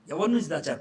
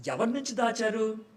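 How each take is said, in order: First: ఎవరి నుంచి దాచారు with నుంచి hit loud and falling; stress on నుంచి. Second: ఎవరి నుంచి దాచారు asked high, with దాచారు rising; rhetorical question. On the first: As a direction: punch నుంచి, louder, voice at normal pitch. (నుంచి పై గట్టి ఒత్తిడితో, తగ్గే స్వరంతో) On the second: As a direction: lift the whole question up, ending on దాచారు. (ఎవరి నుంచి దాచారు అని ఎత్తైన స్వరంతో, దాచారు పై పెరిగే స్వరం) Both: Shown as a demonstration.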